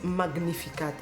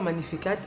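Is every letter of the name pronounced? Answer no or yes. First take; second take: yes; no. First: Every letter of the name is pronounced. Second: Some letters of the name are left silent. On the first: This is how English speakers say it. The speaker calls it wrong. "ils disent Magnificat. Donc, chez eux, toutes les lettres se prononcent" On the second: This is how the name's owner says it. The speaker calls it right. "ils ne prononcent pas Magnificat"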